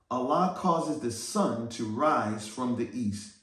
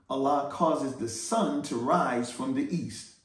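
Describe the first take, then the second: Both takes have the same delivery.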